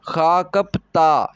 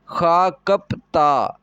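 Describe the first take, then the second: First: The last syllable begins with a tense t sound. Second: The last syllable begins with a tense t sound.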